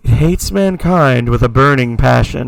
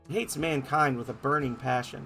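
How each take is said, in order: First: The voice is performed with an echo effect. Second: The voice is plain, with no echo effect. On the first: The speaker calls it right. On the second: The speaker calls it wrong.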